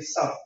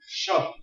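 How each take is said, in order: First: The word begins with a plain s sound. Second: The word begins with an sh sound. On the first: "Or some say sub. S-U-B"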